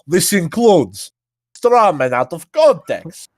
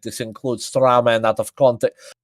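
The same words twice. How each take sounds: First: It is said in a put-on Russian accent. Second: It is said in the speaker's ordinary accent.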